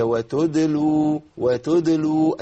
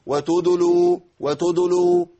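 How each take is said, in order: First: Easy وتدلوا, no vowel on the د; effortless vowelless dal. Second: Faulty, forceful wa-tudulu for وتدلوا; overdone rounded وتدلوا; early lip rounding. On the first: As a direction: slowly chant وتدلوا as wa-tud-lu. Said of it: "والله ما عملت مجهود". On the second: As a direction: push lips out throughout وتدلوا, adding u after د. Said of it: "ياخد هيئة الضم وبروز الشفتين". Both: Shown as a demonstration.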